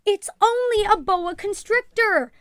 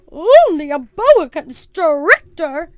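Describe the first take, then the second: First: High, raised reassuring call. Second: Loud, slow, high disbelief; carrying outraged voice. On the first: Mother tries to settle the excited ladies, calling out. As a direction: call over a room of excited people. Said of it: "her mother called to the excited ladies". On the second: Missus Perkins over the noise, loudly incredulous. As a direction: boom it incredulously, drawing out each word. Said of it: "voice carried over the noise". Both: A narrator's reading.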